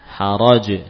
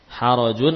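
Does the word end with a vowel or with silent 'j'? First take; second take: silent j; vowel. First: The word ends on a bare 'j' sound. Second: The word ends with a vowel and nasal 'un'. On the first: The reader stops on this word. "menjadi haraj" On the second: The reading continues without stopping. "Harajun menjadi haraj"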